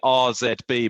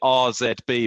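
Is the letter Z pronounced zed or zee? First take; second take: zed; zed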